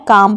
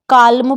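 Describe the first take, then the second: First: काम with a silent L; long vowel straight into M in काम; correct pronunciation. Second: काल्म with the L sounded; common mispronunciation. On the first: Teacher giving the fix, काम with no L. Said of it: "पढ़ना है". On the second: Teacher quoting many learners' mistake, काल्म with audible L. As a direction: voice the L before M in काल्म. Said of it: "पढ़ते हैं". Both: Shown as a demonstration.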